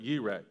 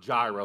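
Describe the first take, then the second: First: It begins with a Y sound and a rolled R. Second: It begins with a J sound and a plain R. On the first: This is the original Hebrew pronunciation. The speaker calls it right. "in Hebrew, it's pronounced Yireh, and they roll the R a little bit" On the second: This is the usual English pronunciation. The speaker calls it wrong. "it's not Jireh like you and I would say"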